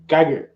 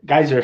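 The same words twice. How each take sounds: First: Geiger said as GUY-ger with a hard g; wrong name. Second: Geyser said as GUY-zer with a z sound; corrected name. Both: Real, not acted.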